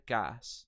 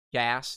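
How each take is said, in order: First: GAS with an open British 'ah'; British vowel. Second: Said in the usual way. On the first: Shown as a demonstration. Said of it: "Gas turns into gas". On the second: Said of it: "the American Standard".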